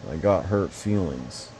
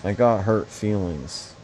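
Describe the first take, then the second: No difference in how they are said.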